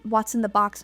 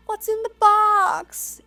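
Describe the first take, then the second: First: Said in the usual way. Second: High, drawn-out mock wail; meme imitation. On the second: Detective in the meme demanding what's in the box, high mock-anguished cry. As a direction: imitate the anguished movie line, pitched way up and stretched. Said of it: "it's kind of funny how he says it".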